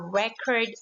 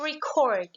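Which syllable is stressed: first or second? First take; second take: first; second. First: The stress is on the first syllable. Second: The stress is on the second syllable. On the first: It is a noun. "is the noun because the stress mark falls into the first syllable" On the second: It is a verb. "the first word here is the verb because, as I said a while ago, the stress mark for verb is on the second syllable"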